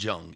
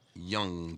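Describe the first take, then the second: First: The name begins with a J sound. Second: The name begins with a Y sound. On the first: The speaker calls it wrong. "It's not Jung" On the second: The speaker calls it right. "like a Y"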